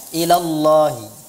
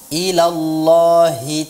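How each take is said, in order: First: The h sound is weak and unclear. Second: The h sound is clear from the throat. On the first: The speaker calls it wrong. "bukan ilallahi" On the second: The speaker calls it right. "membaca huruf H itu jelas dari pangkal tenggorokan"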